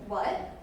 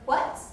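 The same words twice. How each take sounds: First: It is said in a calm, plain tone. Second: It is said in an excited, lively tone.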